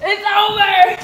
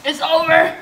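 First: Louder, higher cry. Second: Loud. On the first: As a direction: pitch jumps up on over, loud. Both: Real, not acted. Giving up on the challenge.

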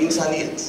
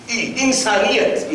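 First: ઇન્સાનિયત repeated softer, falling away; a quieter, reflective ઇન્સાનિયત; soft echo. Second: ઇન્સાનિયત drawn out slowly and weighted; slow emphasis. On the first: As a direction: echo ઇન્સાનિયત softly to yourself. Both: Shown as a demonstration.

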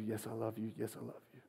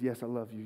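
First: Soft, then softer until almost gone; fading to near silence. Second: Soft, humble yes; quiet answer. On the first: Peter answers Jesus at the campfire, fading away. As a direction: let each yes fade away further. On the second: Peter answers Jesus at the second campfire, softly. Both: Retold or imitated. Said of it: "he says".

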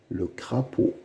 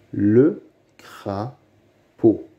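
First: Said in the usual way. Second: "Le crapaud" very slowly, split by long pauses; syllable by syllable. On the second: Shown as a demonstration. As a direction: sound out "Le crapaud" beat by beat. (« Le crapaud » très lentement, syllabe par syllabe) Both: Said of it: "Lis les mots".

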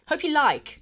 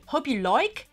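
First: "like" with a plain open "eye" vowel; corrected vowel. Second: "like" said as "loik", Cockney style; Cockney accent. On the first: Vlogger correcting her own accent, open vowel in "like". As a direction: say "like" cleanly, not as "loik". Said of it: "that like doesn't sound good". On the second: Vlogger testing how "like" sounds, Cockney accent. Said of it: "'cause that's like a Cockney accent". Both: Shown as a demonstration.

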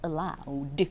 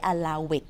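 First: Allowed said as one word ending in a soft d; allowed, one syllable ending in d; correct pronunciation. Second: Allow it, split into two words with a clear "it"; mispronounced allow it; wrong pronunciation. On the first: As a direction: say allowed with just a final d, no extra syllable. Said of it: "ตรงนี้อ่านว่า allowed". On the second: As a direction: say allow it as if it ended in "it". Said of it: "ไม่ใช่ allow it". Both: Shown as a demonstration.

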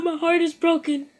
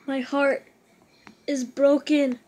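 First: Louder, higher mock-anguished lament; a fan mourning the missed postseason, overdone; hammed-up heartbreak. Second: Mock heartbreak.

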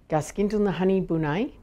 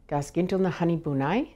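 The two takes are said the same way.

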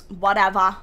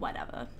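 First: "whatever" tossed out louder, falling off; louder brush-off "whatever"; dismissive. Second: "Whatever" breathed low and soft, almost voiceless; low, soft unvoiced "Whatever"; under breath. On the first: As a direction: shrug it off out loud. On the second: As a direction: mutter it to yourself. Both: Real, not acted.

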